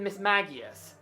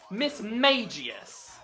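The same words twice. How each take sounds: First: The middle part does not sound like mage. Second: The middle part sounds like the word mage. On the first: The speaker calls it right. "in the anime, it's always been Miss Magius" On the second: The speaker calls it wrong. "Miss Magius does not have the word mage in its name"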